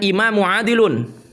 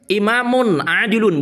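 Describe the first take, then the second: First: The first word ends with a plain vowel. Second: The first word ends with an n sound. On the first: The speaker calls it wrong. "bukan imamu adilun" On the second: The speaker calls it right. "Imamun, bukan imamu, bertanwin itu"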